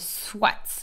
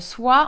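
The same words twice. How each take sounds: First: It is said with a Belgian pronunciation. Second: It is said with a French pronunciation. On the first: "on va dire euh, soit" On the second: "Au lieu de prononcer euh, soit"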